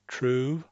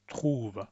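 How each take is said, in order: First: "trouve" with an English R, rising. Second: "trouve" with a French throat R, softer. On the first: Teacher repeating the English "trouve". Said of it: "I'll make the English one". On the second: Teacher repeating the French "trouve". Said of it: "and then the French one". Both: Shown as a demonstration.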